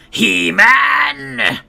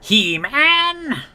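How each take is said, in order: First: The voice is creaky, with added vocal fry. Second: The voice is smooth, without vocal fry.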